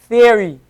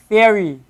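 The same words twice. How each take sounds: The two takes are said the same way.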